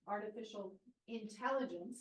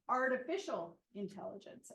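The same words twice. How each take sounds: First: The word intelligence carries the stress. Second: The word artificial carries the stress. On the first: The machines themselves are made intelligent. "the emphasis is on the word intelligence" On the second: Machines are used to simulate intelligence. "the emphasis there is, is um, on, on the machines"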